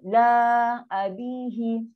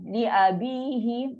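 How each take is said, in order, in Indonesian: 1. Suku kata pertama dibaca 'la'. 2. Suku kata pertama dibaca 'li'. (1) "Masalah kita akan baca la abihi" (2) "lam baris bawah li"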